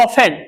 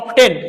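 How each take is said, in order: First: The t sound is left out entirely. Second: The t sound is pronounced in the middle. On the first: "टी silent होता है" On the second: "लिखा गया ऑफ्टेन"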